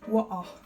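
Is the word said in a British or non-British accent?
British. It is said in a British accent.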